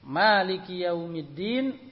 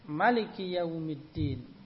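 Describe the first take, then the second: First: The first vowel of maliki is held long. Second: The first vowel of maliki is kept short. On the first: God is the owner of the Day of Judgment. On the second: God is the king of the Day of Judgment.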